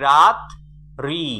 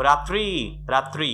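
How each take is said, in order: First: রাত্রি broken as রাত, pause, রি; two distinct beats, রাত and রি; split into syllables. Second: Said in the usual way. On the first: Shown as a demonstration. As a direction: punch রাত loud, then a separate রি. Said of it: "তাহলে দুইটা উচ্চারণ আছে". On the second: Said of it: "রাত্রি বললে সবচেয়ে কম উচ্চারণ কি হয়".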